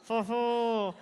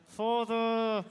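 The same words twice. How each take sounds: First: Put-on jaw-locked French accent; mumbled French accent, jaw held still. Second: Put-on French accent. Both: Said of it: "it's hard to do a French accent when you don't move your jaw".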